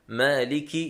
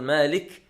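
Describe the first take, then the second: First: The k is followed by the vowel i. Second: The k is said with no vowel after it. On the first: The speaker calls it right. "بكسر الكاف" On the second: The speaker calls it wrong. "ليس بتسكينها"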